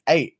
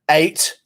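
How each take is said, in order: First: The final T is dropped. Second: The final T is clearly pronounced. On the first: The speaker calls it right. "get on the fucking U K wave" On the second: The speaker calls it wrong. "That's what happens when you pronounce the T at the end of eight. It makes it sound aggressive"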